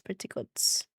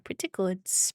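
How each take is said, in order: First: Lower, softer, breathy repeat; low hushed echo; muttered echo. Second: Said in the usual way. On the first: Real, not acted. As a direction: echo it to yourself.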